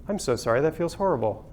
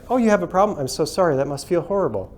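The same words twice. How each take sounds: First: Sincere sympathy. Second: Scripted customer service sympathy. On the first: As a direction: say it like you truly mean it, hushed. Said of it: "are your leaders trained with this". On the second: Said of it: "customer service is trained". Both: Retold or imitated.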